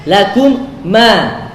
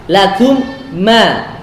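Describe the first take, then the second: The two takes are said the same way.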